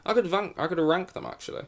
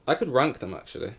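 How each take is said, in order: First: Higher, exaggerated posh repeat. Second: Casual posh British lilt. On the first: Shown as a demonstration. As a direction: overdo the posh accent playfully. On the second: Real, not acted. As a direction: say it like a posh aristocrat. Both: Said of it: "I said that in a really posh voice".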